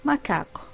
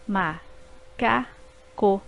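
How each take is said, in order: First: Said in the usual way. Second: Ma-ca-co said very slowly in three beats; syllables split apart, slow. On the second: Shown as a demonstration. Teacher slowly dividing ma-ca-co for pupils. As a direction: drag out ma-ca-co syllable by syllable. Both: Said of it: "formadas por três sílabas".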